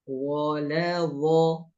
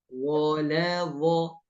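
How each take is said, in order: Both takes have the same delivery.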